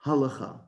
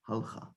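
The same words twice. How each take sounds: First: Halacha in three syllables, HA-le-kha; "halacha" with its middle syllable sounded; voiced shva. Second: Halacha squeezed to two syllables, HAL-kha, softer; "halacha" with l running straight into kh; wrong silent shva. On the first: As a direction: put a short uh between l and kh in halacha. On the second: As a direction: drop the middle vowel of halacha. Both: Shown as a demonstration. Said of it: "not halacha".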